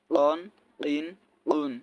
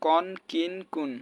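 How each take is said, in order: First: কন, কিন, কুন with uvular q; k made far back in the throat for কন, কিন, কুন. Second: কন, কিন, কুন with an everyday front k; light k on কন, কিন, কুন; mistaken plain k. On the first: Teacher drilling qaf, কন, কিন, কুন with back-of-throat q. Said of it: "কফের যে কফ উচ্চারণ". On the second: Teacher showing what many say, কন, কিন, কুন with plain k. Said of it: "অনেকে এটা কিন্তু বলে". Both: Shown as a demonstration.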